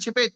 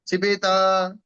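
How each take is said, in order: First: The word ends abruptly on a bare final t. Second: The word ends with a vowel added after t. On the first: The speaker calls it right. "जीभ वही रुक जानी चाहिए ना" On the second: The speaker calls it wrong. "तय को आपने आगे बढ़ा दिया"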